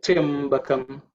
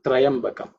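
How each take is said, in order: First: "Triambakam" slow, opening on "tryam" without "tra"; correct pronunciation. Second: "Triambakam" opening on "tra-yam"; wrong pronunciation. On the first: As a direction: stretch "Triambakam" from a tight "tryam". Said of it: "if you try, you, you should, will get it". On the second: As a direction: say "Triambakam" with a full a after the r. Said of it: "It's not Triambakam". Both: Shown as a demonstration.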